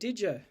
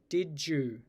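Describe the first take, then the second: First: The vowel in 'you' is reduced to schwa. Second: The vowel in 'you' is full. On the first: "I've also reduced the U in you to a schwa" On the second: "basically with a J"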